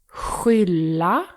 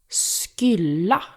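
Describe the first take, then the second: First: The word begins with a breathy h-like sound. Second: The word begins with a hard sk sound. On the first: The speaker calls it right. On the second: The speaker calls it wrong.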